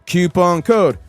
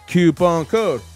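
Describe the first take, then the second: No difference in how they are said.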